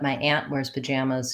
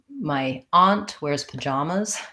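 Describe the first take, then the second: First: Aunt and pajamas use the vowel of 'cat'. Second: Aunt and pajamas use an open 'ah' vowel. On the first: This is how it is said on the West Coast. "here in Seattle" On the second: This is how it is said on the East Coast. "in New Jersey"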